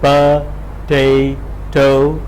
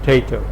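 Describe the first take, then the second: First: A full vowel follows the first consonant. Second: No vowel follows the first consonant. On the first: This is the underlying form of the word. "the underlying representation is pa-tay-to" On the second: This is how the word surfaces in fast speech. "heard in fast speech as, as something like tato"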